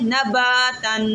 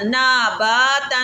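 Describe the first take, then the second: First: The first vowel is short. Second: The first vowel is drawn out long. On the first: The speaker calls it right. "अब अलिफ को खींचने की मिकदार समझ आ रही है" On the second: The speaker calls it wrong. "इसको ऐसे भी नहीं पढ़ना ... इसको भी नहीं खींचना"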